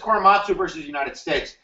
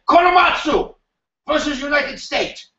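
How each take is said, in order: First: It is said in the speaker's plain accent. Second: It is said with a put-on Japanese accent.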